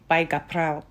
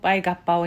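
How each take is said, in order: First: It is said with an r after the p. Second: It is said with no r after the p. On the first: "正確にはガプラオ" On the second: "耳にはほとんどバイガッパオに聞こえます"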